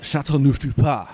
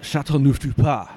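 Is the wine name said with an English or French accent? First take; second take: French; French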